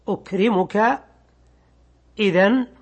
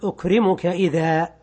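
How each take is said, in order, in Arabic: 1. تنتهي الكلمة الأخيرة بصوت النون. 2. تنتهي الكلمة الأخيرة بحرف الألف الممدود. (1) "كما لو قلت في المثال السابق أكرمك إذن" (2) "فإذا أردت الوقف عليها تقف عليها بالألف"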